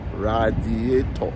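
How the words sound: African accent, every syllable fully pronounced. "In Africa, we say radiator. Radiator. We pronounce every syllable"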